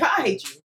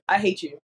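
First: It is said lightly, with laughter. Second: It is said flat and dead serious. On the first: The words are taken as a joke. "I say it and I just be laughing" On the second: The words are meant sincerely. "Gail just be looking dead like"

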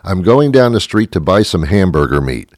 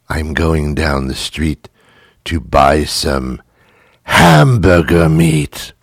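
First: It is said in an ordinary, unremarkable voice. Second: It is said in a deliberately changed voice. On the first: Nobody notices what is said. "Nobody cares" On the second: People take notice of what is said. "if you say it this way"

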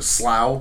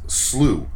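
First: The vowel sounds like the one in Smaug. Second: The vowel sounds like the one in through. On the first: "almost like Smaug" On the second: "like bleeding through"

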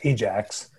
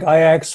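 First: Ajax is said the American way. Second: Ajax is said the non-American, European way.

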